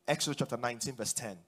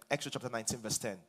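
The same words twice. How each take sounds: The two takes are said the same way.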